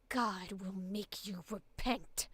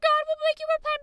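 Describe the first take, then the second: First: It is growled with tense, gritty rage. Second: It is yelled loudly and screamily.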